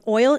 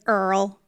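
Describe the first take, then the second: First: The word has the standard 'oy' vowel. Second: The word is said with an 'er' vowel. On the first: The speaker calls it right. "instead of saying oil, like um oil" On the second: The speaker calls it wrong. "she's like Earl"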